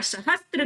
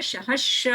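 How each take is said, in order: First: सहस्त्र said with "str"; "sa-hastra" for सहस्त्र; wrong cluster. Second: सहस्र with no t; s straight into r in सहस्र; सहस्र drawn out without a "t"; correct cluster. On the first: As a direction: put a t inside the last cluster of सहस्त्र. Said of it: "सहस्त्र गलत है". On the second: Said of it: "सहस्र होता है". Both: Shown as a demonstration.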